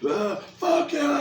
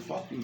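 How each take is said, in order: First: It is said angrily, with heated emotion. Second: It is said calmly, without heated emotion.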